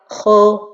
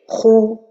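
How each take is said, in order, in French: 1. La voyelle est un « o » ouvert. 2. La voyelle est un « ou » arrondi. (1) "Si je regroupe pas bien mes lèvres ... je me penche vers le fatha" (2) "la prononciation correcte c'est khou"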